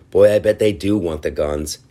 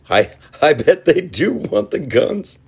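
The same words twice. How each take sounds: First: Said in the usual way. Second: Much higher, mocking repeat. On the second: Shown as a demonstration. Host mocking gun-poll Americans, high mock voice. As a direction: squeak it back in mock disbelief.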